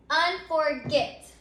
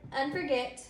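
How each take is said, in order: First: "Unforget" drawn out slowly, syllable by syllable; sounded out slowly. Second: Said in the usual way. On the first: Shown as a demonstration. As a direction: say "Unforget" slowly and distinctly for the class. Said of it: "let's say the word unforget out loud". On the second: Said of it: "you can hear that".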